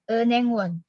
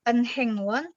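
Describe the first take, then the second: First: The middle h sound is faint and weak. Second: The middle h sound is fully pronounced. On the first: The speaker calls it right. "Hanya samar tipis gitu ya" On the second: The speaker calls it wrong. "Jadi bukan enhengwon"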